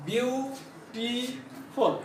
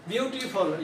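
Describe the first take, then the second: First: ब्यूटीफुल broken into ब्यू, टी, फुल with pauses; syllable by syllable. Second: Said in the usual way. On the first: Shown as a demonstration. Teacher showing three syllables, ब्यूटीफुल split slowly. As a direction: say ब्यूटीफुल slowly and softly in three separate beats. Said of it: "तो इसमें तीन syllable है".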